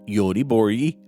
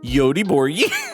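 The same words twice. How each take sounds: First: The word is said plainly, with a straight face. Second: The word is said in an exaggerated, mocking way. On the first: The speaker respects the pronunciation. The speaker calls it right. "I'm gonna say that with a straight face" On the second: The speaker is making fun of the pronunciation. The speaker calls it wrong. "like a stupid, uncultured American making fun of the way foreign people say words"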